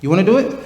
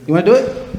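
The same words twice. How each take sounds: The two takes are said the same way.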